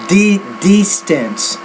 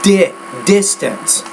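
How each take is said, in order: First: The first vowel is a long 'ee' sound. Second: The first vowel is a short 'ih' sound. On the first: The speaker calls it wrong. "you're saying more di distance" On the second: The speaker calls it right. "it, not pit"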